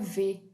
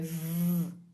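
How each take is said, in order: First: A v sound followed by the vowel e. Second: A bare buzzing v sound with no vowel. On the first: This is the letter's name. The speaker calls it wrong. "V é o nome dela, mas o som dela... não é V" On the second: This is the sound the letter makes when read. The speaker calls it right. "é V"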